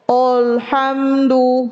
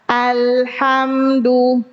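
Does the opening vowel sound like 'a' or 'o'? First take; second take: o; a. First: The first vowel is thick and sounds like 'o'. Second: The first vowel is a clear, light 'a'. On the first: The speaker calls it wrong. "Menebalkan hamzah. O" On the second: The speaker calls it right. "Harusnya A"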